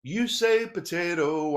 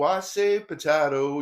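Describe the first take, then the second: First: "potato" with a long AY in the middle; song lyric demo. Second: "potato" with a broad AH in the middle; song lyric demo. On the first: Speaker quoting the song's first version, "potato" as po-TAY-to. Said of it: "the song goes like this". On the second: Speaker quoting the song's other version, "potato" as po-TAH-to. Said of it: "differences in pronunciation". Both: Shown as a demonstration.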